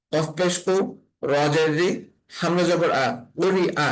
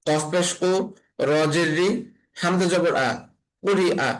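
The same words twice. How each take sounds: The two takes are said the same way.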